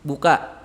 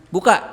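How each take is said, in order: First: Said in the usual way. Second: Buka snapped out much louder with a rise; pressed like an order. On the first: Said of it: "Kalau biasa, biasa". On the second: Shown as a demonstration. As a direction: say buka as a sharp command, hard and loud. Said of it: "Kalau dia agak tekan berarti seolah-olah memerintah".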